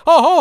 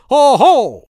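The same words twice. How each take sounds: First: Higher, louder with a laugh, mimicking the cry; laughing mock shout. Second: Loud high shout to scare birds. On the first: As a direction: laugh while echoing the master's shout. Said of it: "quasi sbigottito". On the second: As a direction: yell it out to startle the cranes. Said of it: "gridò". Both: A narrator's reading.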